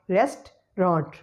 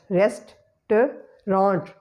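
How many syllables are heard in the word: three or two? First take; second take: two; three. First: The word is said with two syllables. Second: The word is said with three syllables. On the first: "we have to eliminate the second syllable word and we will pronounce it as restaurant" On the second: "It is comprising of three syllables"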